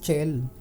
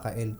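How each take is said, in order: First: The name begins with a ch sound. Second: The name begins with a k sound. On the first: The speaker calls it wrong. "Akala ko nga dati, Eus Chel" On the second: The speaker calls it right. "yung pala Kael"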